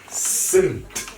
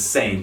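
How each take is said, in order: First: The vowel sounds like the one in 'sit'. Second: The vowel sounds like the one in 'say'. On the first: The speaker calls it right. "you pronounce it as sint" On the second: The speaker calls it wrong. "you do not pronounce it as saint"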